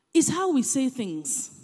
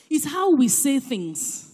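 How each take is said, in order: Both takes have the same delivery.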